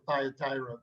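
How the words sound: The name is said with an American pronunciation. "I know in America everybody says Thyatira"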